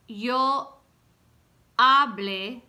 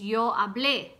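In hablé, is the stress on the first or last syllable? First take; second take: first; last. First: The stress falls on the first syllable of hablé. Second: The stress falls on the last syllable of hablé. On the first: The speaker calls it wrong. "that's wrong" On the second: The speaker calls it right. "It's yo hablé con mi madre"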